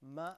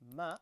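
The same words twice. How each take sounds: No difference in how they are said.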